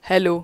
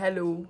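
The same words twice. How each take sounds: First: The voice sounds close and clear. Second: The voice sounds distant and roomy. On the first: "अब आ रही है mic के साथ आवाज़" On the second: "बिना माइक के"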